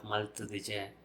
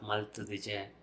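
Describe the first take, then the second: First: The word is said in full with every syllable. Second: The same.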